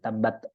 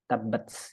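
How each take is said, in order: First: The final t stops with no escaping air. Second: The final t ends with a puff of air. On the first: The speaker calls it wrong. "Bukan tabat" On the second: The speaker calls it right. "tabats ya"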